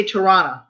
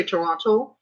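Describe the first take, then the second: First: Toronto said as "Toronna", second T dropped; local pronunciation. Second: Toronto with the second T fully sounded; non-local pronunciation. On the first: Explaining how locals say their city, Toronto as "Toronna". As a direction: say Toronto like a local, "tuh-RAH-nuh". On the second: Showing what locals don't say, Toronto with a full T. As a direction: say Toronto as spelt, "tuh-RON-toh". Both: Shown as a demonstration. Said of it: "They don't say Toronto".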